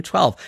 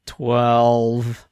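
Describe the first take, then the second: First: Said in the usual way. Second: Sheepish, lower mumbled answer; scolded schoolchildren. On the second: Retold or imitated. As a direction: answer like a caught-out pupil. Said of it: "Like, like scolded school children".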